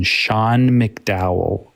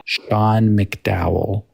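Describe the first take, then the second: First: "Sean McDowell" said very slowly, syllable by syllable; slow name. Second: "Sean McDowell" repeated even slower, ending on a rise; slow name, rising. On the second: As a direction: drag out "Sean McDowell" with an upturn at the end. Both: Shown as a demonstration. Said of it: "S E A N McDowell".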